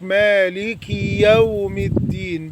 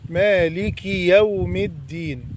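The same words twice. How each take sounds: First: The k is followed by a long ee. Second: The k is followed by a short i. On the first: The speaker calls it wrong. "بيزود الكسرة فيتولد عنها ياء" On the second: The speaker calls it right. "لازم تكسر الكاف"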